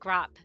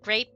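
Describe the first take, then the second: First: The vowel is an open 'ah' sound. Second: The vowel is a long 'ay' sound. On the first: It imitates a non-native speaker's pronunciation. The speaker calls it wrong. "grape became grop" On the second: It is the standard pronunciation. The speaker calls it right. "could not say a the hard A sound"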